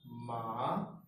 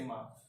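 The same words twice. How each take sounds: First: The pitch rises steadily. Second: It is short and light, with no tone. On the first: It means sesame. "It rises as I say it" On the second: It marks a question. "the neutral tone, which doesn't have any tone on top of it"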